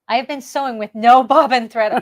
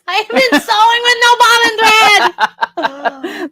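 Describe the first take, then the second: First: It is said in a plain voice. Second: It is said in a screaming cartoon voice.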